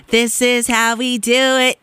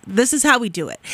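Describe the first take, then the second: First: Slow, stretched-out delivery; slow playful repeat, lingering on the words; drawn-out catchphrase. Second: Said in the usual way. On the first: Real, not acted. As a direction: stretch every word like a party chant.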